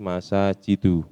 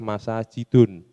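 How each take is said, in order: First: The word ends on a plain u vowel. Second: The word ends with an added n sound. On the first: The speaker calls it right. "tapi masajidu" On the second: The speaker calls it wrong. "tidak ada istilah masajidun"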